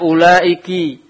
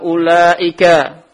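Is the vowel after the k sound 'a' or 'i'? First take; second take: i; a. First: The kaf is followed by an 'i' vowel. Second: The kaf is followed by an 'a' vowel. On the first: "awa kasriha" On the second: "bifatil kaf"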